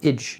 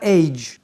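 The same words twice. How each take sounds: First: The ending has a short reduced 'i' vowel. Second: The ending has a full 'ay' diphthong. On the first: The speaker calls it right. "c'est forcément une voyelle réduite, ici le I court" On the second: The speaker calls it wrong. "pas age"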